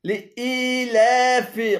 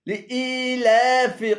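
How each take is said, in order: The two takes are said the same way.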